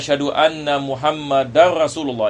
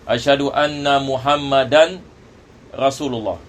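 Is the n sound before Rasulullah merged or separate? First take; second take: merged; separate. First: The n merges into the following r sound. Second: The n is pronounced separately before the r. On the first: The speaker calls it right. "Ini idgham. Ini yang lebih afdal" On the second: The speaker calls it wrong. "daripada kita memisahkannya"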